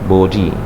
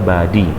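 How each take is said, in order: First: It is said in a British accent. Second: It is said in an American accent. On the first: "British ya" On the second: "Kalau Amerika body ya"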